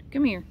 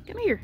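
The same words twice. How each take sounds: First: Said in the usual way. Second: Much higher "Come here"; high coaxing call. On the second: Real, not acted. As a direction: coax the cat with a high call. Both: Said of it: "repeated higher".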